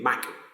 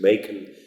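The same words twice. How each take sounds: First: The first vowel is a short sound. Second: The first vowel is a long sound. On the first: "in his Chaucer's time it would have been maken. So short A" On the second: "with a sort of southern English accent"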